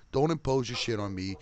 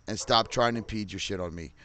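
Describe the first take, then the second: First: Says impose firmly after the slip; corrected word impose. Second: Says impede by mistake, in a plain angry tone; wrong word impede. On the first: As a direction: correct yourself and land on impose. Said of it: "Sorry, impose". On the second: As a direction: slip and say impede where impose was meant. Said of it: "Sorry, I used impede". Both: Real, not acted.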